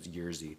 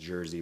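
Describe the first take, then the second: First: It sounds unlike the English word jersey. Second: It sounds like the English word jersey. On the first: The speaker calls it right. "the actual pronunciation is Jerzy" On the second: The speaker calls it wrong. "for years I pronounced his name as Jersey"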